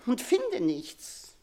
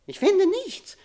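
First: Slow, falling, hopeless. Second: Much higher, rising anguished cry. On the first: Queen to her daughter, slow and defeated. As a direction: let it sink slowly, defeated. Queen despairs at finding no words. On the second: Queen to her daughter, crying out in anguish. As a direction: fling the line up in anguish. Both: Acted.

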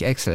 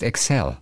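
First: Excel stressed on EX; common first-syllable stress. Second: Excel stressed on CEL; correct second-syllable stress. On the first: Podcaster rejects the usual software name, EX-el. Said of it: "Es heißt einfach nicht Excel". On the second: Podcaster corrects the software name, ek-SELL. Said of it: "es heißt Excel". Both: Shown as a demonstration.

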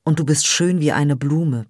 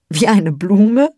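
First: Said in the usual way. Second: Slow, louder, giggling disbelief; childish laugh. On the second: Acted. Peri laughs back at Jiwan's flower compliment, giggling. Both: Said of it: "Ein kindisches Lachen platzte aus ihr heraus".

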